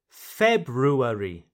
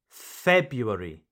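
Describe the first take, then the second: First: The first R sound is clearly pronounced. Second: The first R sound is left out. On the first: "Here you pronounce every letter" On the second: "you do not pronounce the first R"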